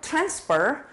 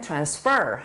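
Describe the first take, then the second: First: The stress is on the first syllable. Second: The stress is on the second syllable. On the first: It is a noun. "보내는 거는" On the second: It is a verb. "보내다라는 동사일 때는"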